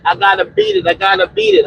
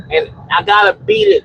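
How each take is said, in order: First: "I gotta beat it" repeated, pitched higher with a hard fall on "beat"; emphatic repetition. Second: Said in the usual way. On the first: Shown as a demonstration. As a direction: hammer home "I gotta beat it" up high. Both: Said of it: "I cannot stress this enough".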